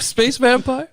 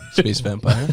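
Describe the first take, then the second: First: It is said in a normal voice. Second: It is said in a soothing, seductive voice.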